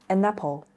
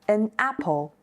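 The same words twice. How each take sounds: First: The two words run together smoothly. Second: The two words are said separately.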